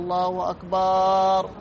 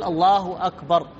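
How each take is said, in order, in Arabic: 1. تُمد الحركة التي بعد الباء. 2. لا يُمد أي حرف علة. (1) "يمد الباء" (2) "فلهذا يقول الله أكبر"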